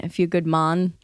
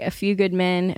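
First: Lightly attempted Jamaican accent on "Mon"; terrible Jamaican accent. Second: Said in the usual way. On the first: Pitching a parody movie title, bad Jamaican accent. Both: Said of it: "That was a terrible Jamaican accent".

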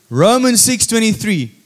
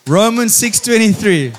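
Both takes have the same delivery.

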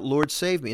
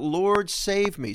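First: Said in the usual way. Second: Higher, slow pleading Lord save me; a drawn-out, understated plea; mild cry for help. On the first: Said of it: "cried out". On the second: Acted. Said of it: "he cried out".

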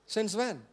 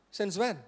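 Both takes have the same delivery.

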